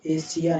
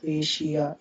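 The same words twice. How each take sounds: First: "एशिया" mispronounced as e-si-ya; wrong s sound. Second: "एशिया" said e-shi-ya; correct sh sound. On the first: Teacher showing the mistake, s-for-sh mispronunciation. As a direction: say "एशिया" with plain s for sh. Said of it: "एशिया नहीं बोलेंगे". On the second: Teacher giving the right Asia, sh pronunciation. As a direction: say "एशिया" with sh in the middle. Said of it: "क्योंकि श बोलते हैं इनको". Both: Shown as a demonstration.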